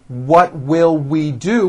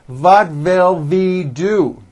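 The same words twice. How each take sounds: First: The W words use a rounded-lips W sound. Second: The W words use a German-style V sound.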